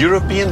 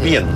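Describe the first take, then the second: First: The word is said in full with all syllables. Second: The word is clipped to one short syllable. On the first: "Die zegt niet European" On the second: "die zegt PIEN"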